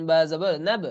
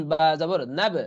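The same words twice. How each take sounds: The two takes are said the same way.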